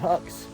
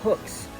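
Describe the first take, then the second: First: The vowel sounds like the one in 'cut'. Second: The vowel sounds like the one in 'book'. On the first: "H U C K S" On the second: "like a fishing hook"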